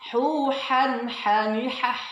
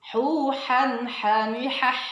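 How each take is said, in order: No difference in how they are said.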